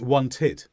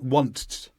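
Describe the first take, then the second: First: The ending is said with an extra vowel sound. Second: The ending is said with no extra vowel sound. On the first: The speaker calls it right. "when you have a T or a D before the ed, then we do need that vowel sound" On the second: The speaker calls it wrong. "it's not want"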